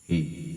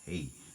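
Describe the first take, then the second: First: The voice has a strong, clear hall-like echo. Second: The voice sounds thin and sharp, without bass. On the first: "sobrang klaro nung echo niya na para kang nasa loob ng hall" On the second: "so ayan yung boses natin kapag wala tayong bass"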